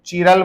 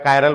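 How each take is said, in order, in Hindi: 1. यह शब्द 'chee' ध्वनि से शुरू होता है। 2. यह शब्द 'kai' ध्वनि से शुरू होता है। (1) "कई लोग चीरल बोलते हैं" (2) "मेरे को कायरल अच्छा लग रहा है तो मैं कायरल बोलूंगा"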